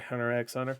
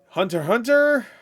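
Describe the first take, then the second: First: The title is said with an 'x' between words. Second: The title is said without the middle 'x'. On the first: The speaker calls it wrong. "You don't say Hunter X Hunter" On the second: The speaker calls it right. "that's how you say it"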